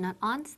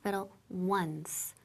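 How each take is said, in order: First: It is said as two syllables, 'on-seh'. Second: It is said as one syllable, 'wunce'. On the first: The speaker calls it wrong. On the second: The speaker calls it right.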